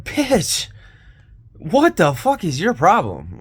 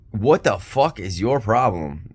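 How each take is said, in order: First: High, loud angry snap back; angry retort. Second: Said in the usual way. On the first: Retold or imitated. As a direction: fire back at her furious. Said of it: "I'm like".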